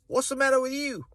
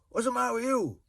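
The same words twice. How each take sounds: First: It is said in an Australian accent. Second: It is said in a low Welsh accent. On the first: "In Australia" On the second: "Whereas in Wales, ... Or a little bit lower"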